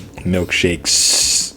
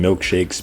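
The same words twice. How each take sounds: First: The final S sound is stretched and hissed. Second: The final S sound is short and normal.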